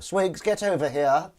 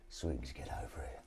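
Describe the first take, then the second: First: High, loud, drawn-out villain summons; villain calling henchman. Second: Low, quiet henchman-summoning villain; failed Blofeld impression. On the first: Acted. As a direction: call the henchman over, loud and slow. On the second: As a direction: attempt a hushed, low Bond villain. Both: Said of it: "That wouldn't be Blofeld".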